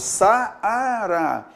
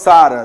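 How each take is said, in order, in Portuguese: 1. As duas vogais são ditas em sílabas separadas. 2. As duas vogais formam uma só sílaba. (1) "eu falo Saara" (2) "Então eu não falo Saara"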